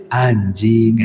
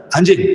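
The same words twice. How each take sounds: First: Low, drawn-out word; slow, low growled-at-you demo; stern tone. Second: Quick, light jab; casual joking insult. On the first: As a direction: drop low and stretch it out. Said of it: "yang satu mungkin jangan-jangan bentak". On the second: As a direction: toss it out as banter. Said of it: "yang satu disangka guyon". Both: Shown as a demonstration.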